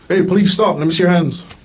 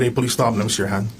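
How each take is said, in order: First: It is said in a loud, commanding voice. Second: It is said in a normal speaking voice.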